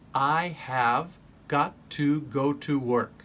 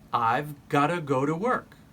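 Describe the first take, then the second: First: Each word is said fully and separately. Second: The words are linked into a reduced form.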